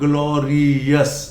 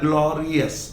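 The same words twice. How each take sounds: First: The ending sounds like 'yes'. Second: The ending sounds like 'us'. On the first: The speaker calls it wrong. "Not ग्लोरियस" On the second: The speaker calls it right. "Glory से बनता है ग्लोरियस"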